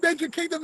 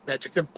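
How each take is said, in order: First: Magic Kingdom squealed much higher; thrilled. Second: Grumpy. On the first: Seeing the sign at last, high delighted squeal. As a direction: gasp it out like a delighted kid. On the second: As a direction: sneer at the sign. Sees sign, still grumpy. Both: Retold or imitated.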